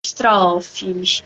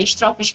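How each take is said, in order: First: Estrofes with a closed ô, "estrôfes"; first estrofes. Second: Estrofes with an open ó, "estrófes"; corrected estrofes. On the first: Poet correcting her own word, first saying it with a closed o. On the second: Poet corrects herself and says it with an open o. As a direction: estrofes said again with the o open, as in avó. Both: Shown as a demonstration. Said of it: "é, estrofes".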